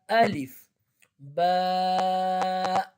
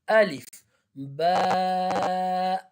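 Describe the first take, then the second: The two takes are said the same way.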